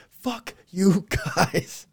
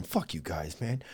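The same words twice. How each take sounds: First: Loud, high, drawn-out mock curse; hammed-up, slow-motion outburst; mock outrage. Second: Low, soft imagined grumble; quietly fed-up pretend quote; muted mock resentment. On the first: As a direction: stretch each word out in pretend indignation. Same imagined reaction, blown up. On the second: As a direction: play the snubbed actor under your breath. Character actors' imagined grumbled reaction.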